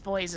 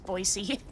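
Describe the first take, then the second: First: The name sounds exactly like the word boys. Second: The name sounds different from the word boys. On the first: The speaker calls it wrong. "It's not pronounced as boys" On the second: The speaker calls it right. "it's pronounced as Boise"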